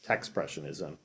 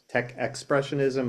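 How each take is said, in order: First: Tech runs straight into 'spressionism' without 'ex'. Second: Tech is followed by a full 'ex' syllable. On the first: The speaker calls it right. "it's expressionism with a T" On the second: The speaker calls it wrong. "a lot of people can't have a hard time pronouncing it and think it's tech expressionism"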